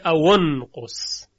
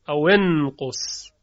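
First: A u vowel links aw to nqus. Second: An i vowel links aw to nqus. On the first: This follows a particular recitation tradition. "در روایت قالون میبینیم که اینجا به جای کسره ضمه میگیره" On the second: This follows the common Arabic rule. "این رو در بیشتر موارد کسره میدن"

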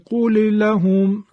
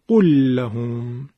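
First: The two lam sounds are pronounced separately. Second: The two lam sounds merge into one doubled lam. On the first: The speaker calls it wrong. "سخته" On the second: The speaker calls it right. "لام قول رو که ساکنه حذف میکنیم، به جاش لام لهم رو تشدید میدیم"

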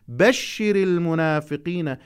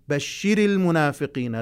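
First: The last syllable of the first word is unstressed. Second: The last syllable of the first word is stressed. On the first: A man is being addressed. The speaker calls it right. "نلاحظ إلى هذه الملاحظة المهمة جدا" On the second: It sounds as if a woman is being addressed. The speaker calls it wrong. "لا أقول بشر المنافقين، لا لا لا، يعني أقصد الحالة النبرية"

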